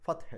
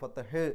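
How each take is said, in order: First: The final h is touched lightly and softly. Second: The final h is released hard and heavy. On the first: The speaker calls it right. "ചെറുതായിട്ടൊന്ന് ഹ ഇൻ്റെ ആ ഒരു തൊട്ട് വെച്ചിട്ടാണ്" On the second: The speaker calls it wrong. "കട്ടിയിൽ ഗൗരവത്തിൽ പറഞ്ഞ് നിർത്തരുത്"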